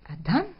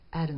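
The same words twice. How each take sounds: First: Adam is said with a foreign-language pronunciation. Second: Adam is said with an English pronunciation. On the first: The speaker calls it right. "C'est quelqu'un d'autre. C'est Adam" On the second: The speaker calls it wrong. "les Anglais disent Adam"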